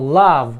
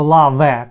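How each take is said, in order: First: The word ends on the v sound. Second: An extra vowel is sounded after the final v. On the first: The speaker calls it right. "Ми кажемо лав" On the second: The speaker calls it wrong. "Ми не кажемо лаве"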